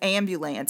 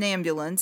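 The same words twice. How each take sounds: First: The word is drawn out in a Tidewater accent. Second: The word is said in a plain, ordinary way. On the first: "she drew out ambulance" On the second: "It wasn't an ambulance"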